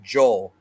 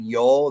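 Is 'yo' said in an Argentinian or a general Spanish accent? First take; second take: Argentinian; general Spanish. First: It is said with an Argentinian Spanish accent. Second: It is said with a general Spanish accent. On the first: "they say yo" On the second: "instead of saying yo"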